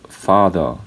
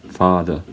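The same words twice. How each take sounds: No difference in how they are said.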